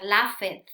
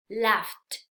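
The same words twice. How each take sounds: First: Laughed wrongly in two syllables, laf-ed; incorrect pronunciation. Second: Laughed in one syllable, laft; correct pronunciation. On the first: Teacher shows what not to say, mispronounced. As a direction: sound out the e in "laughed". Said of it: "Eso sería totalmente incorrecto". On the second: Teacher corrects the common error, carefully pronounced. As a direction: say "laughed" with ft at the end, silent e. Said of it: "Es como si agregáramos una T ahí al final". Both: Shown as a demonstration.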